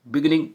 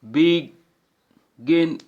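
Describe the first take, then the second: First: Said in the usual way. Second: beginning slowly split into बि, गिन, निंग; syllable by syllable. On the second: Shown as a demonstration. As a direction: pause after each syllable of beginning. (Beginning को तीन हिस्सों में तोड़कर) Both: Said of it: "three syllable भी होते हैं".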